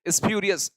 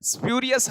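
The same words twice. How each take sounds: First: An extra vowel is added before the s sound. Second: The word starts directly with the s sound.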